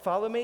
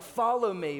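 First: The voice rises at the end, like a question. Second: The voice falls at the end, like a command.

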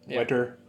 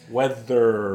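First: The middle consonant sounds like a t. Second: The middle consonant is a clear th. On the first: The speaker calls it wrong. "I don't know why I just keep saying wetter" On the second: The speaker calls it right.

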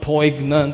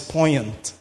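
First: The g is sounded in the middle. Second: The g is silent in the middle. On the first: The speaker calls it wrong. "is not poignant" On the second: The speaker calls it right. "it's poignant"

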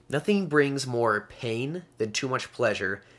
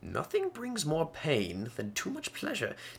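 First: It is said in the speaker's ordinary accent. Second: It is said in a put-on British accent.

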